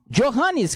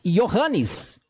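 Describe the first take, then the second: First: The name starts with a soft 'zh' sound. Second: The name starts with a 'y' sound. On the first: It is read as a Portuguese speaker would read it. "que você falaria normalmente, olhando para a palavra" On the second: It is said as in the Germanic languages. "nas línguas germânicas Johannes, porque você vai transformar o J em Y"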